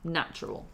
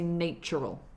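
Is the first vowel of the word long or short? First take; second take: short; long. First: The first vowel is short, as in cat. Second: The first vowel is long, as in nature. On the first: The speaker calls it right. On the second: The speaker calls it wrong.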